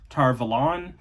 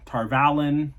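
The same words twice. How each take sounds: First: "Tar Valon" ending like "lawn"; "Tar Valon" with an unstressed "Va" and an open "lon"; alternative pronunciation. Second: "Tar Valon" rhyming with "talon"; "Tar Valon" with a short "a" stressed in "Val"; alternative pronunciation. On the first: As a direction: say "Tar Valon" as tar vuh-LAHN. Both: Shown as a demonstration. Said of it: "however it's meant to be pronounced".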